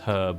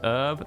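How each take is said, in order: First: The word begins with an audible h sound. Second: The word begins without any h sound. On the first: The speaker calls it right. "is herb with a with an H" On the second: The speaker calls it wrong. "That's not how the word's spelt"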